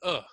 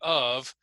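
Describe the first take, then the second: First: The word is reduced to a short schwa. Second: The word is said in full with an f. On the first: "cut the F ... replace the vowel with the schwa" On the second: "instead of saying of"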